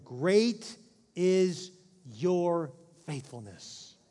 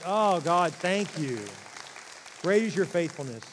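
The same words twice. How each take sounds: First: "Great" pushed out loud, then "your faithfulness" drawn out very slowly; solemn scripture reading. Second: Loud, fervent thanks to God; grateful exclamation. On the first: Acted. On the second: Pretend. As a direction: burst out in relieved gratitude.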